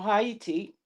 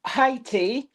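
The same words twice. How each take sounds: First: Haiti as hah-EE-tee; three-syllable Haiti. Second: Haiti said in two syllables. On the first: Offering viewers the other pronunciation, Haiti as ha-ee-tee. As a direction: split the vowels in Haiti into ha-ee-tee, softer and falling. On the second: Giving Scotland's football result, Haiti in two syllables. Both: Shown as a demonstration. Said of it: "depending on how you say it".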